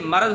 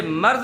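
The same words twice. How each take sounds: First: मर्ज as two syllables, "ma-raz"; short a after the r in मर्ज; correct pronunciation. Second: मर्ज as one syllable, "marz"; no vowel after the r in मर्ज; mispronunciation demo. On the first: Teacher correcting pupils, correct pronunciation. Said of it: "ये मर्ज होता है". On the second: Teacher rejecting it for pupils, mispronunciation demo. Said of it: "ये मर्ज नहीं होता". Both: Shown as a demonstration.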